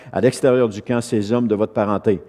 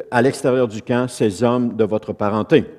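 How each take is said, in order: No difference in how they are said.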